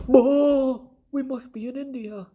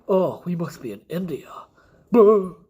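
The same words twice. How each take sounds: First: Loud high whoop, then high silly voice; exaggerated high-pitched goofy explorer; Christopher Columbus. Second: Mock explorer, raised voice ending in a loud boo; first, less squeaky goofy take; Christopher Columbus. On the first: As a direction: play a ridiculous squeaky mock explorer. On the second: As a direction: exclaim it, then burst out a booing cry. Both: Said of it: "he said like this".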